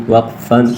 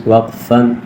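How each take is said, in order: Both takes have the same delivery.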